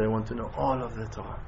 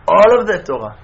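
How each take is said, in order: First: Low, very soft retold reply; quiet earnest plea. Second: "All" hit loud, falling away on "Torah"; emphatic repeat. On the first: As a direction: say it low, almost to yourself. Retold student's reply, first take. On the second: Retold or imitated. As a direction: punch "All" hard, much louder. Repeated emphatically after quiet take.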